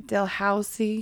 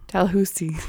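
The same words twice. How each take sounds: First: "Dalhousie" with HOW in the middle, questioning; tentative "Dalhousie", middle rhyming with cow; mispronounced Dalhousie. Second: "Dalhousie" with HOO in the middle; "Dalhousie" copied with an oo vowel; corrected Dalhousie. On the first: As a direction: try "Dalhousie" as dal-HOW-zee, unsure. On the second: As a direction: repeat "Dalhousie" as dal-HOO-zee, falling. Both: Shown as a demonstration.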